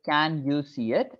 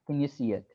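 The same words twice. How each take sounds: First: The word 'can' has a full, clear vowel. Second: The word 'can' is weak and reduced. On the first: The speaker calls it wrong. "I don't really pronounce it like" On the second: The speaker calls it right. "can is uh, really an unstressed word, so it becomes can"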